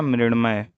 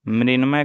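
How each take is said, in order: First: मृण्मय with retroflex "ṇ". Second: मृण्मय as "mrinmay"; dental n. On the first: Teacher answering with the correct form, मृण्मय with retroflex ṇ. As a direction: curl the tongue back for ṇ in मृण्मय. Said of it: "क्या होगा". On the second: Teacher asking for the correction, मृण्मय with dental n. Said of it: "का क्या होगा". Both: Shown as a demonstration.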